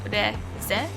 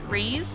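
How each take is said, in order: First: The name is pronounced the Japanese way. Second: The name is pronounced the English way. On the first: "in Japanese I feel like you would pronounce it as Reze" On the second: "In English you would probably pronounce it Reese"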